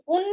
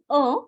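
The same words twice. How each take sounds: First: Un with the N sounded, like une; un sounding feminine. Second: Masculine un without a sounded N; nasal French un. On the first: Teacher shows the mistake, un pronounced like une. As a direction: say un wrongly as "oon". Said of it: "un sounds like feminine". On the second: Teacher corrects student's article, un with silent N. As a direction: let un end open, no N. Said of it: "Try saying". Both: Shown as a demonstration.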